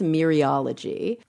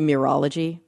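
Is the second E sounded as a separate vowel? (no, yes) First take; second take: yes; no. First: The second E is sounded as its own vowel. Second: The second E is not sounded separately. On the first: "I think it's mereology" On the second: "It could be mirology"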